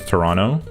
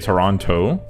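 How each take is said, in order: First: The second T is left out. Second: The second T is clearly pronounced. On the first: "we just like omit the T, so it becomes Toronto" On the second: "we don't say Toronto"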